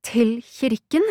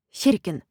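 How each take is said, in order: First: "kirken" rising high in disbelief; incredulous question. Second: "kirken" falling to a full stop; matter-of-fact confirmation. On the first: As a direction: echo it back, lifting "kirken" into a question. Incredulous echo, then flat confirmation. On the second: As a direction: confirm it, letting "kirken" drop. Cousin confirms, answering the question. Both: A narrator's reading.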